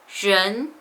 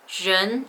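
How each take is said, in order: Both takes have the same delivery.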